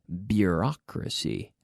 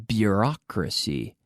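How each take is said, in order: Both takes have the same delivery.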